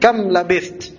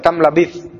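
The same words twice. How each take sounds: First: Kam labith with a clear th at the end; correct Arabic reading. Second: Kam labith read carelessly as the wrong version. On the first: Teacher showing the correct reading to students. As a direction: read it kam labith, every letter clear. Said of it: "Bacanya gitu". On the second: Teacher imitating the students' wrong reading. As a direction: show the reading students must avoid. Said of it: "antum jangan baca". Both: Shown as a demonstration.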